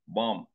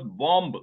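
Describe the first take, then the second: First: The final B sound is silent. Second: The final B sound is pronounced. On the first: The speaker calls it right. "it is pronounced bomb. That B is silent" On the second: The speaker calls it wrong. "We in India, newspapers"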